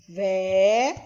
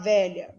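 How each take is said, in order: First: "Velha" in two separate syllables; silabado. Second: Said in the usual way. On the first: Shown as a demonstration. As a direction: stretch "Velha" as vé, pause, lha. ("Velha" separado em duas sílabas, com pausa) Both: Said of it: "Quantas vezes você abre a boca".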